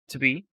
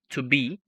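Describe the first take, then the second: First: The words run together with a reduced vowel. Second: Each word is said fully and separately. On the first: The speaker calls it right. "no it's to be to be successful" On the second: The speaker calls it wrong. "it's not like to be to be"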